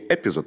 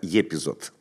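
First: The word begins with a plain 'e' sound. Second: The word begins with a 'ye' sound. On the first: The speaker calls it wrong. "не «Эпизод»" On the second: The speaker calls it right. "а «Епизод», так звучит"

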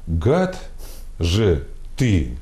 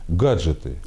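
First: It is split into separate syllables. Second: It is said smoothly as one word. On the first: It calls someone a scoundrel. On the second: It names electronic devices.

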